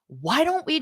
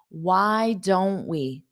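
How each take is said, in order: First: It is said quickly with some frustration. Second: It is said slowly and calmly. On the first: "you'll listen to it fast with a little bit of frustration in my voice" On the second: "Now I'll say it slowly"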